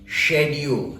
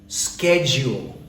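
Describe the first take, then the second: First: It is said in a British accent. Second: It is said in an American accent. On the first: "the Brits pronounce this word as schedule" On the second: "the Americans pronounce it as schedule"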